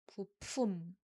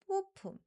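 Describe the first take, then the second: First: The word starts on a low pitch. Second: The word starts on a high pitch. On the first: The speaker calls it right. "you use a lower pitched sound" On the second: The speaker calls it wrong. "be careful not to start with a higher pitched sound"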